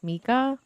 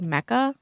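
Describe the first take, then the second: First: The first vowel sounds like 'ee'. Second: The first vowel sounds like 'eh'. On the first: This is how the name is really said. The speaker calls it right. "it's Mika" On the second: This is how others usually say the name. The speaker calls it wrong. "people say it Mecca"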